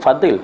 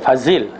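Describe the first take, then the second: First: The middle consonant is a d-like sound. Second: The middle consonant is a z sound. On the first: This is the pronunciation Pakistani speakers do not use. "Dia tak sebut Fadil" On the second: This is how Pakistani speakers say it. "dia Fazil"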